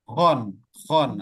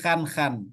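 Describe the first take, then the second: First: The vowel sounds like a full rounded 'o'. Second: The vowel sounds like an open thin 'a'. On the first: The speaker calls it right. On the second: The speaker calls it wrong. "Karena kebiasaan jadi khan khan"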